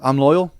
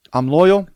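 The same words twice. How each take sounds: First: Said in the usual way. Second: Higher and louder, insisting; promising his wife with a big, loud insistence; emphatic repeat. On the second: Retold or imitated. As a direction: really drive home the loyalty the second time. Repeats loyalty vow to wife.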